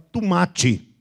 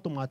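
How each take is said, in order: First: It is said in a Carioca accent. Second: It is said in a plain, non-Carioca accent. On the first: "Pede para um carioca falar tomate, ... ele fala tomate" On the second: "ele não fala tomate"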